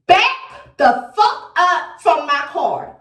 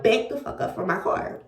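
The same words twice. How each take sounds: First: Slow, firm warning to back off; a stern threat through the car window. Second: Softer, muttered version of the warning; the same threat murmured between prayers; under her breath. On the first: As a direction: spell it out slowly, no nonsense. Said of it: "I had to say it like that". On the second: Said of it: "Even though I'm praying at the same time". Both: Retold or imitated.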